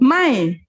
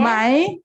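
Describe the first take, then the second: First: It is said with the tone of 'no'. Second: It is said with the question-word tone. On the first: It means no or not. "And the word no" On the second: It marks a yes-no question. "The question word ma, my"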